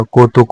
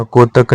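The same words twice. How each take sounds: First: कौतुक ending in -tuk; correct form. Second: कोतक ending in -tak; wrong form. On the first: Teacher giving the correction, कौतुक with u. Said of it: "होता है". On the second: Teacher showing learners the mistake, कोतक with a. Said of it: "नहीं होता". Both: Shown as a demonstration.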